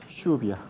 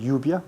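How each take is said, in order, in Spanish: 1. La 'll' es un sonido 'zh' vibrante. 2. La 'll' es un sonido 'y' suave. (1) "¿cómo se dice? ... así es la típica pronunciación de los argentinos" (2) "No se dice lluvia"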